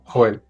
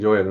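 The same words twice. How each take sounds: First: It starts with a harsh throaty J sound. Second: It starts with a soft English J sound. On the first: "algo más fuerte como" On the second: "en inglés lo dicen"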